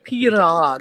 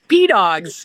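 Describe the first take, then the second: First: The R is rolled with a trill. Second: The R sounds like a D, not rolled. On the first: "We got to roll the R" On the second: "most Americans actually pronounce them as P-Dogs"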